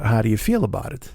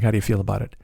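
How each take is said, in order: First: Lightly put-on French accent; a hint of mock French accent; tortured French accent. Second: Said in the usual way. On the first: French passenger asking driver's opinion, tortured French accent. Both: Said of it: "stop the tortured French accent now".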